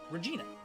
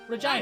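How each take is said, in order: First: The name is said the American way. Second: The name is said the Canadian way.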